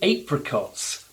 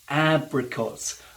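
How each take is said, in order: First: It is said the British way. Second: It is said the American way. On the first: "We call them apricots because it's A P" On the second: "He also uses something he calls apricots"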